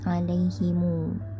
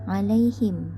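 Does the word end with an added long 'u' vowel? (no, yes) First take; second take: yes; no. First: The word ends with an added 'u' vowel. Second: The word ends on a closed 'm' sound.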